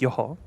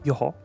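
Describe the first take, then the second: First: It sounds like a calm, acknowledging mm-hmm. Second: It sounds like a calm, acknowledging mm-hmm.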